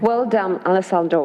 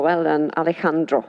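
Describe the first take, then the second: First: Alessandro with an s sound in the middle; uncorrected name pronunciation. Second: Alejandro with the j as a breathy h; corrected Spanish pronunciation. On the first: Moderator thanking the panel speaker, name mispronounced as Alessandro. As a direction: say "Alessandro" with a hissed s, not a Spanish j. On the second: Moderator correcting the panel speaker's name, Alejandro in Spanish pronunciation. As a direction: say "Alejandro" the Spanish way, ah-leh-HAHN-droh. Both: Real, not acted. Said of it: "That's the right pronunciation".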